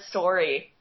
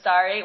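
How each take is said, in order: First: The word is said with a Canadian accent. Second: The word is said with an American accent. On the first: "I said it like that" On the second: "instead of sorry"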